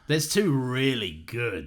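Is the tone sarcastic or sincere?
sarcastic. It is read in a mocking, sarcastic tone. The dinosaurs are actually not good. The speaker calls it right. "let me try that again"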